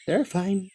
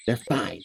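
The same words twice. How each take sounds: First: "They're fine" forced out higher and soft; strained reassurance. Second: Soft, low "They're fine" said to yourself; quiet self-reassurance. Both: Acted. Siffrin repeats it to calm down.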